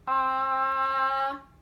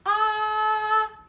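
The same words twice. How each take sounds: First: The vowel is held at a medium pitch. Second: The vowel is held at a high pitch. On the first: "So medium" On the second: "Now we're going to do a high pitch"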